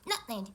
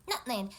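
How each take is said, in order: The two takes are said the same way.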